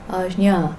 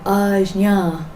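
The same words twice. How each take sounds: First: The j sound is only lightly touched. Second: The j sound is pronounced strongly and fully. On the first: The speaker calls it right. "Just a tiny touch" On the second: The speaker calls it wrong. "I'm uh, doing it too much"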